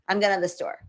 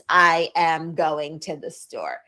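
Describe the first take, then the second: First: The words are contracted and reduced together. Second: Every word is said fully and separately. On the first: The speaker calls it right. "It's I'm gonna" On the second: The speaker calls it wrong. "we don't say that in spoken English"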